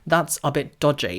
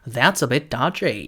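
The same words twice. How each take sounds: First: It is said in a British accent. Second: It is said in an American accent.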